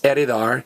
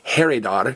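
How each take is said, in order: First: The word starts with a silent h. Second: The word starts with a sounded h. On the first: The speaker calls it right. "this H is silent. It's heredar" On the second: The speaker calls it wrong. "not heredar"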